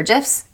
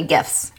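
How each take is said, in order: First: GIFS with a soft G, as in gem. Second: GIFS with a hard G, as in gift. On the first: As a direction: say gifs like "jifs". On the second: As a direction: say gifs starting like "give". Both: Shown as a demonstration. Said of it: "I don't know".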